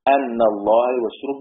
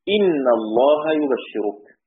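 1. الكلمة الأولى تبدأ بالصوت a. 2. الكلمة الأولى تبدأ بالصوت i. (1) "بالفتح" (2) "يكسر في كلا، في كلا يعني قرأ حمزة وابن عامر"

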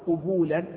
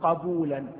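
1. المقطع الأول فيه حركة 'u'. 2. المقطع الأول فيه حركة 'a'. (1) "أو ضمها" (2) "بفتح القاف"

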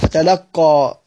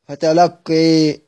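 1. الصوت الأخير فتحة واضحة. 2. الصوت الأخير بين الفتحة والكسرة. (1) "بالفتح ... فتح" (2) "تقليل"

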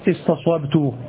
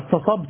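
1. يأتي بعد السين صوت الواو. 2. يأتي بعد السين صوت ألف المد الطويل، دون واو. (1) "لكنه جاء هنا استصوبت" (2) "هذا هو الأصل"

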